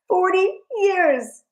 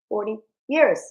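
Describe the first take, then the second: First: It is screamed at a much louder volume. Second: It is said at a normal volume.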